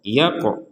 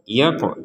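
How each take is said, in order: First: The qaf is released with a bouncing echo. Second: The qaf is released with a bouncing echo.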